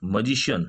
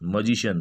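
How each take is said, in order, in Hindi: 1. पहले अक्षर में छोटा 'uh' स्वर है। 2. पहले अक्षर में छोटा 'uh' स्वर है।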